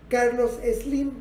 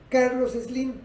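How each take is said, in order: Both takes have the same delivery.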